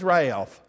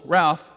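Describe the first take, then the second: First: Ralph stretched into two syllables, like Rai-olf. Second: Said in the usual way. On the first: Retold or imitated. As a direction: draw Ralph out Mississippi style, Ray-alf. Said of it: "it has at least two syllables". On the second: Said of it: "My name normally has one syllable".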